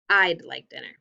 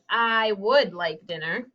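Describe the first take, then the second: First: 'Would' is shortened to a 'd' sound. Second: 'Would' is said as a full separate word. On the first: "we just say" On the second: "instead of saying"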